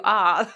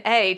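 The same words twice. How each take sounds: First: "ah" as an open, broad British vowel; British-style A. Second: Said in the usual way. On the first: Shown as a demonstration. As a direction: say "ah" for the letter A, mocking a British accent. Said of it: "changed his A's ... to ah". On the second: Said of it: "saying regular American A".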